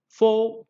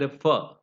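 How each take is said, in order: First: FOR with a full, long "aw"; strong form. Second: FOR reduced to "fuh"; weak form. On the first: Teacher listing preposition forms, strong form. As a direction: say FOR slowly as a full word. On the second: Teacher listing preposition forms, weak form. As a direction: say FOR with a neutral vowel. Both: Shown as a demonstration. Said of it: "it has a weaker form".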